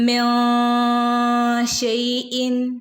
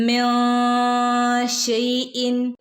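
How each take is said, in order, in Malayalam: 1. "min" എന്നതിലെ n ഒരു നാസിക ശബ്ദത്തിൽ മറഞ്ഞിരിക്കുന്നു. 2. "min" എന്നതിലെ n ഒരു നാസിക ശബ്ദത്തിൽ മറഞ്ഞിരിക്കുന്നു.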